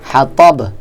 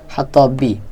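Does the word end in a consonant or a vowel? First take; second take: consonant; vowel. First: The word ends on a bare b consonant. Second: The word ends with a short i vowel. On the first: This is the form used when stopping at the verse end. "বায়ের উপরে মনে মনে জজম ধরে পড়তে হবে" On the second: This is the full form used while spelling it out. "বানান করে পড়ার সময় এরকম"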